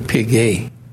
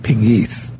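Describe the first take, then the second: First: The name is said the original French way. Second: The name is said the family's anglicized way. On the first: This is the name's original pronunciation. "It's really Pegue. That's the way they pronounce" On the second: This is how the family says the name. "We call it Pegues"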